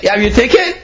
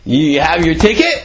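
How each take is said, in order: First: Higher, pressing repeat of the question; insistent repeat. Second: Said in the usual way. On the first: Acted. Friend at the train pressing a second time, higher and insistent. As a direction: push him for an answer.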